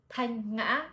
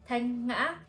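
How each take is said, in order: The two takes are said the same way.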